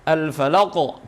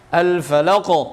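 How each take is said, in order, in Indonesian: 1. Huruf q terakhir kuat dan berakhir tegas. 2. Huruf q terakhir kuat dan berakhir tegas.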